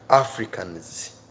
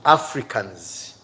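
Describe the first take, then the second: No difference in how they are said.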